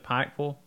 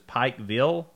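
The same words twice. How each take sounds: First: The word is said in a clipped local accent. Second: Both the I and the vill are said clearly. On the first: The speaker is a local. "have you ever been to Pikeville?" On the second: The speaker is not from the area. "If they pronounce both the I and the vill very clearly"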